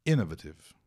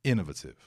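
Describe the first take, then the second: First: Innovative said clearly, "inovativ" with a falling end; the correct way to say innovative, firm fall; correct pronunciation. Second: Innovative with a crisp British t; innovative, British, with a short falling end; British pronunciation. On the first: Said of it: "assim que fala". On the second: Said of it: "no inglês britânico". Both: Shown as a demonstration.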